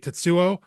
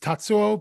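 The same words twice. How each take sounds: First: The stress is on the second syllable. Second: The stress is on the first syllable. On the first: The speaker calls it wrong. "most people would say Tatsuo, and having the emphasis on the second syllable" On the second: The speaker calls it right. "so I would say it's Tatsuo"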